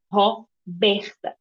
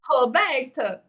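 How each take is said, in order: First: "Roberta" with open O, slow, Minas accent; Roberta mineiro. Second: "Roberta" with a closed O, slow and careful; O fechado. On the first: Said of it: "é O fechado". ("Roberta" com O aberto, devagar) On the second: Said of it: "Por favor, fala seu nome". ("Roberta" com O fechado, devagar) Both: Shown as a demonstration.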